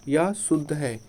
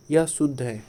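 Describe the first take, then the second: No difference in how they are said.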